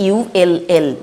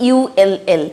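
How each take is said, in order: Both takes have the same delivery.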